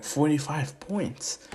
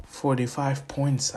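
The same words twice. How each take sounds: First: Slow, drawn-out disbelieving echo; surprised echo. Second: Said in the usual way. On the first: Acted. Dad reacting to his son's score, surprised. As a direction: stretch it out, taken aback.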